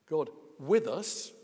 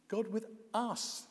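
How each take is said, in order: First: The stress falls on the word with. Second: The stress falls on the word us. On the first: God is alongside people as one of them. "Yes, one of us" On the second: God is present for people as they are. "Yes, us as we are, even you"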